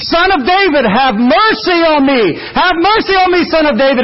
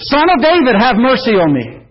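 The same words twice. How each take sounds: First: Begging cry. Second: Crying out. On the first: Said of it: "and he is begging". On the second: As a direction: call out to Jesus for mercy. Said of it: "But he's crying out". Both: Retold or imitated.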